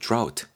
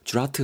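First: It is said as a single syllable. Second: It is said with extra vowels, several syllables. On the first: The speaker calls it right. "drought 정도로 하시고요" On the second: The speaker calls it wrong. "드라우트 하지 마시고"

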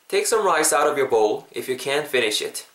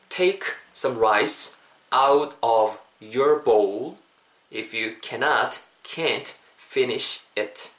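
First: The sentence is said at natural speed. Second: The sentence is said slowly and deliberately. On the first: "자연스럽게 가볼게요" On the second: "천천히 한 번만 해볼게요"

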